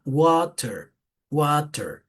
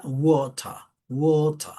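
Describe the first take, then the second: First: American "water" with an A and a clear final R; American pronunciation. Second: British "water" with an open O, no R; British pronunciation. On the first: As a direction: open "water" into American "WAH-ter". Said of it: "acá si es una A". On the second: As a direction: round "water" into British "WOH-tah". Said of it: "el sonido de una O abierta". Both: Shown as a demonstration.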